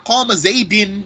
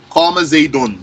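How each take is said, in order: First: The name ends with an i vowel. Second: The name ends with an u vowel. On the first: The speaker calls it wrong. "I can't say here qama zaydin with a kasra" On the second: The speaker calls it right. "the sign of its rafa' dhamma, is a dhamma"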